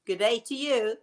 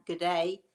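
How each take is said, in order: First: Put-on light playful Australian accent; mock Australian accent. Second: Said in the usual way. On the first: Greeting an Australian viewer back in a light mock Australian accent. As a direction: echo the Aussie greeting back with a grin. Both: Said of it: "I love that accent".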